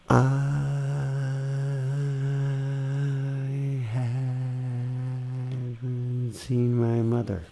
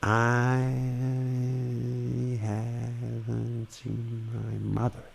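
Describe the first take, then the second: First: Mother gets no special emphasis. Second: Mother gets clear emphasis.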